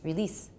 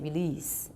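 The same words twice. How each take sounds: First: The E vowel is cut short. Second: The E vowel is drawn out long. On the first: The speaker calls it right. "It's release. You have to make it really short" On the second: The speaker calls it wrong. "it's not quite right if you say release"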